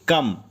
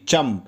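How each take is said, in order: First: The word begins with a k sound. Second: The word begins with a ch sound. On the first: This is the standard Arabic form. "कम accurate Arabic सही है।" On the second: This is the regional Kuwaiti form. "Kuwait में बहुत सी जगह पर चम भी बोलते हैं।"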